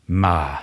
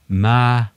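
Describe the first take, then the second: First: It is said with the tone meaning but. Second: It is said with the tone meaning ghost. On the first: It means but. "Det betyr menn, eller som" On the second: It means ghost. "så betyr det spøkelse"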